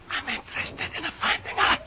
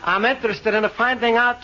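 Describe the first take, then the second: First: It is said very quietly. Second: It is said very loudly.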